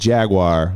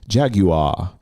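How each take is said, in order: First: It has no extra 'u' sound after the g. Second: It has a clear extra 'u' sound after the g. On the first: "there's no U in the way we say it" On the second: "I love British for the U"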